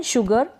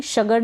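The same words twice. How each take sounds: First: शुगर starting 'shoo', not 'shuh'; short-u pronunciation. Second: शगर starting 'shuh' in place of 'shoo'; wrong vowel demo. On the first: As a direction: say शुगर with a short 'oo' after sh. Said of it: "यहाँ पर भी शगर नहीं पढ़ेंगे". (शुगर में छोटे उ का उच्चारण) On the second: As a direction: say शगर with 'uh' after sh. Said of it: "शगर नहीं पढ़ेंगे". (शगर में उ की जगह अ का उच्चारण) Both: Shown as a demonstration.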